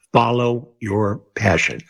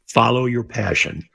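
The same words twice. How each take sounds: First: Each word of "Follow your passion" spaced out slowly; slow emphatic repeat. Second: Said in the usual way. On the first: Real, not acted. Guest advising young radio hopefuls, slow and emphatic on "Follow your passion".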